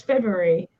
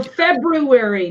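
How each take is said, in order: First: FEBRUARY said "Feb-yoo-ary"; February without first R. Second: FEBRUARY said "Feb-roo-ary"; FEBRUARY as "Feb-ru-ary", every sound there. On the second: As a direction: keep the first R in FEBRUARY. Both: Shown as a demonstration. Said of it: "No, it's February".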